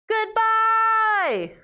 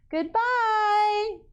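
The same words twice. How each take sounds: First: It is shouted as loudly as possible. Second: It is said gently in a smiling voice.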